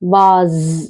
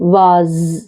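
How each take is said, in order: First: Long 'ah' vowel, ending in a z sound. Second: The same.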